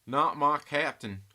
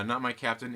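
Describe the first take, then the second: First: Put-on slow, drawn-out Southern accent, a bit louder. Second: Said in the usual way. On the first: Playing the comment for chat, in a slow Southern accent. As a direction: stretch it out in a thick Southern accent. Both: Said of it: "in Southern accent".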